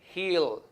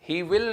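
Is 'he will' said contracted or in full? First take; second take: contracted; full. First: The two words are contracted into one syllable. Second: The two words are said separately in full. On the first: The speaker calls it right. "Listen to me very carefully. Perhaps he'll" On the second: The speaker calls it wrong. "he will नहीं"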